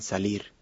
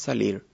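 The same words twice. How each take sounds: First: The final R is a standard Spanish R. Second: The final R is retroflex, tongue curled up. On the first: "la pronunciación oficial o estándar" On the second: "se realiza como un sonido retroflejo"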